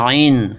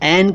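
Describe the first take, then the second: First: The first vowel is a long aa-i. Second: The first vowel is a plain ai. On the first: This is how it is said in Arabic. "आइन कहते हैं" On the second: This is how Urdu speakers say the letter name. "ऐन को"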